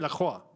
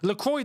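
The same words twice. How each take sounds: First: The name is said with a French accent. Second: The name is said with an English accent. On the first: The speaker calls it right. "I know that's how you say the name properly" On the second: The speaker calls it wrong. "doesn't sound right"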